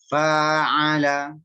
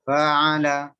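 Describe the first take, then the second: First: The vowel is held at full length. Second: The vowel is cut too short. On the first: The speaker calls it right. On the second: The speaker calls it wrong.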